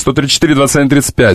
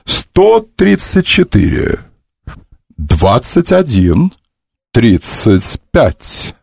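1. Числа читаются в обычном темпе. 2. Числа читаются медленно и раздельно.

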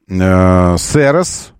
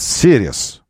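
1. Название читают по буквам, по-русски. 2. Название произносят как одно английское слово. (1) "МБРУС решили так называть Сирис бренд" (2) "в которых Сирис называется Сирис"

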